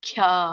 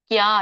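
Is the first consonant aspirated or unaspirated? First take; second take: aspirated; unaspirated. First: The first consonant is said with aspiration. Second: The first consonant is said without aspiration. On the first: The speaker calls it right. "ಒತ್ತಿ ಹೇಳಿ" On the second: The speaker calls it wrong. "ಕ್ಯಾ ಅಲ್ಲ"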